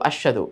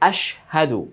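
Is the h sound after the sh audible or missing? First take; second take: missing; audible. First: The h sound is dropped and not heard. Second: The h sound is clearly heard after sh. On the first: The speaker calls it wrong. "হাটা যে এখানে আছে বলাই যায় না বা বুঝাই যায় না, মানে আস্বাদু আস্বাদু এরকম হয়ে যায় না" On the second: The speaker calls it right. "সেই দুইটা হরফের ভিন্নতা যেন আলাদাভাবে স্পষ্টভাবে হয়"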